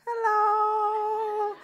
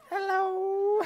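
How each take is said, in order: First: Much higher, drawn-out sing-song hello; mock-innocent hello; awkward hello. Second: Much higher, strained sing-song hello; mock-innocent hello; awkward hello. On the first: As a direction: chirp it to dodge the awkwardness. Awkward greeting to avoid moment. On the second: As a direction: chirp it to hide the shame. Awkward greeting stepping out.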